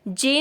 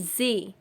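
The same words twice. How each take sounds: First: The word begins with a j sound. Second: The word begins with a z sound. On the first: The speaker calls it wrong. "जे नहीं" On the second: The speaker calls it right. "बल्कि जे"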